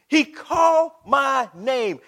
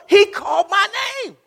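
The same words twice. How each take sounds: First: Slow, loud, word by word; deliberate, spaced pulpit emphasis; drawn-out repeat. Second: High, loud preacher's cry; soaring pulpit shout; climactic shout. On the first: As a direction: stretch each word out with weight. Same words, drawn out slowly. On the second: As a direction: cry it out at the peak of the sermon. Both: Real, not acted.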